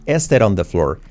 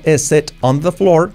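First: "is it on the floor" linked, t tapped as r; palabras unidas. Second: "is it on the floor" as separate words with a hard t, higher; word-by-word "is it on the floor", pitched up; sin unir palabras. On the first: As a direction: run "is it on" together like "eserón". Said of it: "sino que digo". ("is it on the floor" enlazado, t como erre suave) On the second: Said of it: "la unión de palabras. No digo". ("is it on the floor" separando las palabras, t marcada) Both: Shown as a demonstration.

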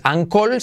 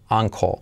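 First: "ankle" with a clear Spanish L at the end; full final L. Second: "ankle" ending almost in an O, L barely there; near-silent L. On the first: Teacher showing the mistake in uncle, "ankle" ending in a hard L. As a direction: pronounce the L of "ankle" fully. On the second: Teacher correcting uncle, "ankle" said as "anco". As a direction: swallow the final L of "ankle". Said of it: "la L al final es casi imperceptible". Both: Shown as a demonstration.

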